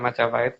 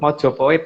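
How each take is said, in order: First: The first two vowels sound like 'a'. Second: The first two vowels sound like 'o'. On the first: The speaker calls it wrong. "bukan Majapahit" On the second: The speaker calls it right. "Mojopahit ya"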